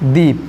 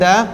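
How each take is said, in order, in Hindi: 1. स्वर एक लंबा 'ee' है। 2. स्वर एक छोटा, हल्का 'uh' है। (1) "हम लोग करते हैं दी" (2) "एक करते हैं द"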